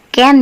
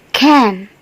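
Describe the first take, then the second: First: The first sound has no puff of air. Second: The first sound has a strong puff of air. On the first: The speaker calls it wrong. "jangan baca can ya" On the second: The speaker calls it right. "harus ada letupan suaranya"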